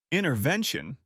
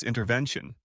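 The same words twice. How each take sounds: First: "Intervention?" echoed with dry sarcasm; sarcastic. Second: Said in the usual way. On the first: A narrator's reading. Husband interrupts to question her word, sarcastic. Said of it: "clearly hearing the sarcasm in the word".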